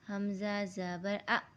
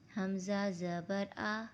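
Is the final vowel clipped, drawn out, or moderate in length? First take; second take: clipped; moderate. First: The final vowel is cut off abruptly. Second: The final vowel has a moderate, even length. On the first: The speaker calls it wrong. "हमें इसे ऐसा नहीं पढ़ना" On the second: The speaker calls it right. "बिल्कुल मुतवस्सित तरीके से"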